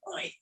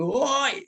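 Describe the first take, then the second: First: A hushed whispered Oi, barely voiced; mock whisper of a call. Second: Shouted Oi, the right way; shouted call. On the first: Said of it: "bukan bisik-bisik". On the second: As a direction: call Oi out across a distance. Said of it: "seruan yang sambil berteriak". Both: Shown as a demonstration.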